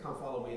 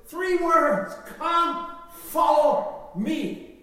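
First: Offhand. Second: Proclaiming. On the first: Retold or imitated. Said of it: "we just treat them as, Okay". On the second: Acted. Preacher proclaims Jesus' call.

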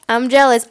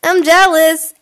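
First: Said in the usual way. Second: Loud, high jealous cry; hammed-up jealousy; mock jealous outburst. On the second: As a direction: blurt out jealous. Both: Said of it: "I was about to say, like".

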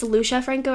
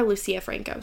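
First: Lucia said as LOO-shuh, two syllables; first name variant. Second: Lucia said as loo-SEE-uh, three syllables; second name variant. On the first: Podcaster unsure of an author's name, Lucia as LOO-shuh. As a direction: say Lucia with a "sh" in the middle. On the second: Podcaster offering the other name, Lucia as loo-SEE-uh. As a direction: say Lucia with an "s" and a separate "ee-uh". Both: Shown as a demonstration. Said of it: "I don't know if it's".

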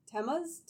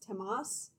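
First: "Temas" with an unstressed "muz" ending; questioning TEM-uz for "Temas"; trying a pronunciation. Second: "Temas" with an open "mahs" ending; questioning "Temas", ending in a clear ahs; alternative pronunciation. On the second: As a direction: ask "Temas" as tem-AHS. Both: Shown as a demonstration. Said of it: "how would you say that?".

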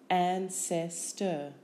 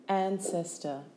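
First: Slow "Ancestor" as an, ces, tor; syllable by syllable. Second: Said in the usual way. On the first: Shown as a demonstration. Teacher giving syllables for spelling, Ancestor slowly in beats. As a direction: break Ancestor into three separate beats.

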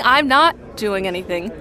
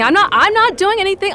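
First: Said in the usual way. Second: Higher, louder, fast denial; defensive. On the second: Acted. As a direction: protest too much. Caught drinking, defensive.

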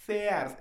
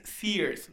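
First: "Sears" as "se-ars", two syllables; "Sears" with separate e and a; Spanish reading of Sears. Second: "Sears" as "sirs", one long ee; mock-correct "Sears" with the English vowel; "Sears" pronounced the American way; English-style Sears. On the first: Retold or imitated. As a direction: read "Sears" as written in Spanish, drawn out. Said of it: "no es Sears, es Sears". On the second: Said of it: "llega esta morra de".

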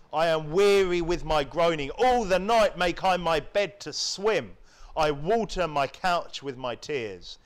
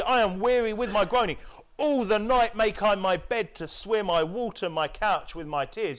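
First: Said in the usual way. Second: "I am weary with my groaning" with the words "I" and "All" pushed up and stressed; emphatic reread. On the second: Shown as a demonstration. Preacher rereads verse six to stress its emotion, emphatic. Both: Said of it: "verse six especially".

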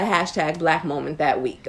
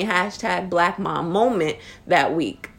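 First: Said in the usual way. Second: "Mom moment" said slowly, leaning on "moment"; careful correction. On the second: Real, not acted. Host corrects the segment name, slow correction. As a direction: fix the name, slow and deliberate. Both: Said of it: "Oh, ha-, excuse me".

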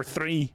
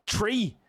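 First: Said in the usual way. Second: "tree" said for three, higher pitched; Irish TH as T. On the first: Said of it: "they will say three like that". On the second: Shown as a demonstration. Showing an Irish misconception, "tree" with T for TH. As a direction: say "tree" with a hard T in place of TH. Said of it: "for three".

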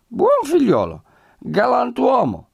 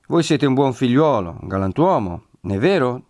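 First: Very high, loud tipsy agreement; squealed, drawn-out drunken repetition; drunk echo. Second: Lightly raised, leading question; butter him up to get agreement; coaxing flattery. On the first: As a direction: parrot it back like a happy drunk. Drunk Renzo echoes the host's words. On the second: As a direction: persuasive innkeeper. Host coaxing drunk guest, who echoes him. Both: A narrator's reading.

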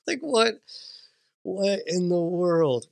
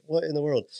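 First: Stunned disbelief. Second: Said in the usual way. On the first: Retold or imitated. Dad retelling shock at son's words, high disbelief. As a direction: replay the baffled disbelief. Repeating his stunned reaction.

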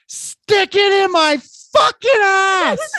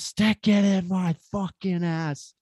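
First: Full-force high scream, words stretched out; top-of-the-lungs yell. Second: High, drawn-out retold scream, held back in volume; mock yell. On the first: Retold or imitated. Storyteller acting out the woman yelling from the darkness, screamed at full force. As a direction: yell it loud enough to deafen the room. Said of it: "the top of her fucking lungs". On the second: Storyteller recalling the shout out of the darkness, restrained mock yell. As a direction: replay the yell without full force. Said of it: "out of the darkness, just".

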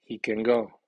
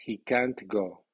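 First: "can" reduced, stress on "go", falling close; falling statement landing on "go"; statement tune, weak can. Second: "can't" drawn out and accented, then falling "go"; strong stress on can't. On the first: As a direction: say "He can go" with a short unstressed "can". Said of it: "el perfil de la aseveración es dos, tres, uno". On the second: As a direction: hit "can't" with a full vowel and clear T. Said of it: "las palabras negativas llevan acento fónico fuerte". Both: Shown as a demonstration.

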